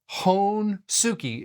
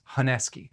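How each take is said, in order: First: Every syllable is pronounced fully, as it looks. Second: A middle vowel is dropped, sounding like Haneski. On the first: This is the reading suggested by the spelling. "is how it looks" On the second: This is how native speakers say it. "how people from Japan pronounce Hon-Suki"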